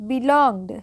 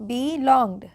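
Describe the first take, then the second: No difference in how they are said.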